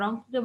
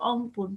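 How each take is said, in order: First: Said in the usual way. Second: অংপুর with the initial r dropped; Rangpur dialect pronunciation. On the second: Shown as a demonstration. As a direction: open on "o" in অংপুর, Rangpur-style, no r. (অংপুর, রংপুরের আঞ্চলিক উচ্চারণে র ছাড়া) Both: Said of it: "র কে অ উচ্চারণ করে".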